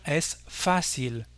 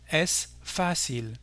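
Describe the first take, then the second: First: "es fácil" with the stress on the first A, "fá"; Spanish stress on the A. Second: "es fácil" said very slowly, stress held on "fá"; slow stressed repeat. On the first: Teacher modelling for French learners, "es fácil" stressed on "fá". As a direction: say "es fácil" stressing "fá", not the last syllable. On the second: Teacher repeating slowly for learners, "es fácil" stressed on "fá". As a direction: drag out "es fácil", leaning on "fá". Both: Shown as a demonstration. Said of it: "l'accent porte sur le A".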